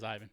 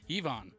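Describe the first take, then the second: First: The name sounds like Ivan. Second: The name sounds like Yvonne. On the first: This is how the Australian voice says it. The speaker calls it right. "An Australian says Ivan" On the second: This is how the American voice says it. The speaker calls it wrong. "They never say Ivan. It's like Yvonne"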